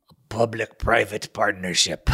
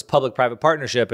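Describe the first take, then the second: First: Mock German accent, slightly slower and measured. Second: Said in the usual way. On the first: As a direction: put on a hammy German accent. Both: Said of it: "In my best German accent".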